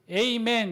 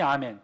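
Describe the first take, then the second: First: The first vowel is a gliding 'ay'. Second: The first vowel is a plain open 'ah'. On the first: This is how English speakers habitually read it. "자기네 습관처럼 뭐라고 읽어요? 에이멘 이렇게 읽어요" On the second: This is the original Hebrew reading. "발음이 아멘. 히브리어로 아멘입니다"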